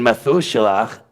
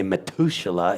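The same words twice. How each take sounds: First: "Methuselah" with th and a throaty ending; th sound. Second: "Methuselah" with a hard t replacing th. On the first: Teacher arguing from a familiar name, clear th. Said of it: "I can't say Methuselah if". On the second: Teacher showing the inconsistent form, hard t. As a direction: harden "Methuselah" to a t sound. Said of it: "then I can't say Methuselah". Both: Shown as a demonstration.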